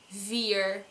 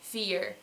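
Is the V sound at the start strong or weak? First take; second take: strong; weak. First: The word starts with a strong, buzzing V. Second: The word starts with a weak, light V. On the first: The speaker calls it wrong. "it won't be vier" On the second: The speaker calls it right. "but it will be vier"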